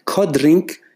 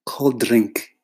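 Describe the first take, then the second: First: High rising disbelief at the offer; incredulous. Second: Falling, dismissive repeat; flat mocking. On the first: Real, not acted. Photographer mocking a client's offer, incredulous rise. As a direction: repeat it high, can't believe it. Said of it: "in my head, I'm thinking". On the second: Creative mocking a client's offer, flat scorn. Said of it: "you say".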